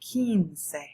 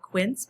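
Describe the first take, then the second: First: It is said as two Spanish-sounding syllables. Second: It is said as one English-sounding syllable. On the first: The speaker calls it right. "but it's quince" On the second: The speaker calls it wrong. "it looks like quince"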